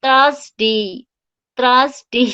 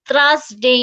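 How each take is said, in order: First: "থার্সডে" loud, two stretched syllables, "thras-dee"; corrected pronunciation. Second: "থার্সডে" drawn out with a misplaced first sound; wrong pronunciation. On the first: Teacher correcting the word, loud drawn-out model. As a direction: push out "থার্সডে" loudly with a long ending. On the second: Teacher rejecting a version, drawn-out mispronunciation. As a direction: stretch "থার্সডে" as the version to avoid. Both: Shown as a demonstration. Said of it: "না, থার্সডে না".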